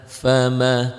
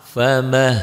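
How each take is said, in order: The two takes are said the same way.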